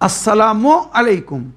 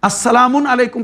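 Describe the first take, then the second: First: No 'n' sound ends the word 'salamu'. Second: An 'n' sound ends the word 'salamu'. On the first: The speaker calls it right. "যেখানে আলিফ লাম লাগবে সেখানে তানবিন হয় না" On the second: The speaker calls it wrong. "আসসালামুন আলাইকুম কখনো বলবেন না"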